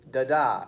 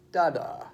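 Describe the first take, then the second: First: "da-da" with the second da punched; light "da", then strong "DA"; stress on second da. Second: "da-da" with the first da leading; strong first "da", lighter second "da"; stress on first da. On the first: Teacher shows how iambic feet go, stress on second da. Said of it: "they go da-da instead of da-da". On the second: Teacher shows the wrong foot, stress on first da. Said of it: "instead of da-da". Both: Shown as a demonstration.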